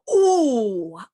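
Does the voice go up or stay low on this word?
low. The pitch stays low, without going up. "or we go"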